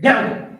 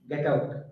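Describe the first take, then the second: First: It is said loudly and forcefully. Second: It is said softly and lightly. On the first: The speaker is angry. "you can see people shudder" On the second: It is a joke. "we will all really laugh"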